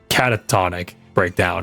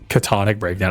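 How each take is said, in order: First: The first word is said with four syllables. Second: The first word is said with three syllables. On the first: The speaker calls it right. "I think it's pronounced Catatonic Breakdown or something" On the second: The speaker calls it wrong. "It's not pronounced Catonic Breakdown"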